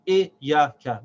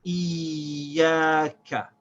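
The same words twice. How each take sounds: First: IYAKA with a short i cut off from ya; missing shad. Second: IYAKA with a long held iyy into ya, short ka; emphasized shad. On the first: Teacher showing the incorrect reading, unconnected. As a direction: break IYAKA up, no held y. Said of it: "which is incorrect". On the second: Teacher showing what one should say, shad emphasized. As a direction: drag out the y in IYAKA. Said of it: "emphasize the shad on the letter". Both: Shown as a demonstration.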